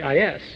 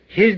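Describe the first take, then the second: First: The word begins without an h sound. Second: The word begins with an h sound.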